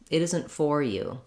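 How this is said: The stress falls on 'for'. "that's stressing on that for, it's making it too clear"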